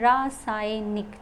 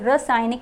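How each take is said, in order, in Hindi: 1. पहले अक्षर में लंबी 'aa' ध्वनि है। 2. पहले अक्षर में छोटी 'a' ध्वनि है। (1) "उसमें आ की मात्रा ज़रूर लगेगी" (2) "रासायनिक नहीं होता है"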